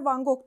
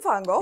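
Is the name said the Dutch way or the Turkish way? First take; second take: Turkish; Dutch. First: The name is said with Turkish pronunciation. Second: The name is said with Dutch pronunciation. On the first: This is the habitual local way of saying it. The speaker calls it wrong. "Biz Türkler Van Gogh diyoruz" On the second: This is the original native way of saying it. The speaker calls it right. "Hollandalı olduğu için Van Gogh"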